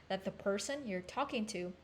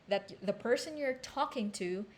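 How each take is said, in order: The two takes are said the same way.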